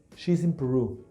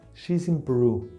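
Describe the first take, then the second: Both takes have the same delivery.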